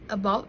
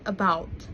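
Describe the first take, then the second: First: The vowel sound is simplified. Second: The vowel sound is full. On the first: "about as" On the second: "rather than"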